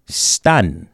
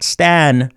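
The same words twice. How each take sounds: First: "Stun" with an uh vowel, lower; low "Stun", rhyming with fun; correct pronunciation. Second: "Stan" with the a of "man"; wrong pronunciation. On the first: Teacher repeating the Nuxalk for mother, "Stun" with uh. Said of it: "but it's pronounced stun". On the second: Teacher showing what to avoid, "Stan" like the name. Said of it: "Not Stan". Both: Shown as a demonstration.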